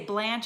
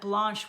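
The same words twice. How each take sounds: First: The vowel rhymes with ranch. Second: The vowel rhymes with launch. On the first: The speaker calls it wrong. "so many people mispronounce my name and say Blanche" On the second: The speaker calls it right. "Blanche rhymes with launch, not rhymes with ranch"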